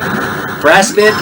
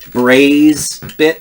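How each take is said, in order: First: The first vowel is a short A. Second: The first vowel is a long A.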